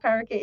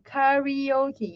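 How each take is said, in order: First: Karaoke said as "ka-ro-kay"; Malaysian pronunciation. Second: Karaoke said as "ka-ree-o-kee"; higher, careful karaoke with "ree" and a final "kee"; correct pronunciation. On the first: Teacher showing students how not to say it, Malaysian "ka-ro-kay" pronunciation of karaoke. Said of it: "That's Malaysian English. You know, karaoke. It's not karaoke". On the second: Teacher showing how you pronounce it, karaoke as "ka-ree-o-kee". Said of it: "that's how you pronounce". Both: Shown as a demonstration.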